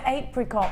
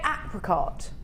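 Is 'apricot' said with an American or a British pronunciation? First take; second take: British; American. First: The word is said with a British pronunciation. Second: The word is said with an American pronunciation. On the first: "We call it apricot" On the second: "Do Americans say apricot?"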